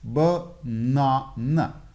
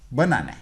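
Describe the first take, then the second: First: Banana drawn out very slowly in three separate syllables, stressed in the middle; slow, split Banana with a stressed second syllable. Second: Said in the usual way. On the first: Shown as a demonstration. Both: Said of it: "the middle syllable is stressed".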